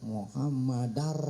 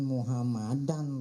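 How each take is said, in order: First: The final n merges into an r sound. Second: The final n is kept as an n sound. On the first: The speaker calls it right. "masuk dal, masuk ke ro. Muhammadar" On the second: The speaker calls it wrong. "Jangan Muhammadan Rasulullah"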